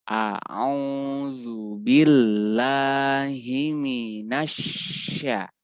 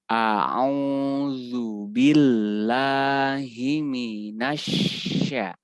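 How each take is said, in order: The two takes are said the same way.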